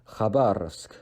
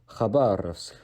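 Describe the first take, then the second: No difference in how they are said.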